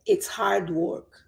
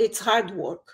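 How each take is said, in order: First: It is said slowly and clearly. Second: It is said fast with sounds running together. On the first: "Eu estou falando mais claro" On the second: "se eu for falar rápido"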